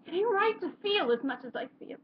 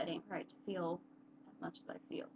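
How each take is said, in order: First: High, pained stage delivery; anguished closing line. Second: Quiet quote. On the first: Acted. Character ending a monologue on too much feeling, anguished. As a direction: let the last line ache out, pitched high. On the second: Retold or imitated. Vlogger recalling the line that spoke to them, hushed. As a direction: murmur the remembered line, almost to yourself.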